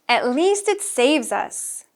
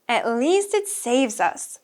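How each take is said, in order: No difference in how they are said.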